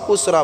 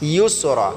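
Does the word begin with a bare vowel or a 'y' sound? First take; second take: bare vowel; y sound. First: The word begins with a bare vowel sound. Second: The word begins with a 'y' sound. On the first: The speaker calls it wrong. "উসরা বললে হবে না" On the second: The speaker calls it right. "এখানে ইয়াসিন পেশ ইউস"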